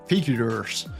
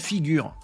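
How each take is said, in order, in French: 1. Le nom se prononce à l'anglaise. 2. Le nom se prononce à la française. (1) "C'est américain" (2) "dit prononcé en français"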